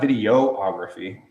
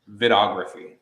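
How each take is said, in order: First: An extra 'ee' vowel follows the first syllable 'vid'. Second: The first syllable 'vid' runs straight into 'ography'. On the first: The speaker calls it wrong. "It's not videography" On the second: The speaker calls it right. "It's vidography"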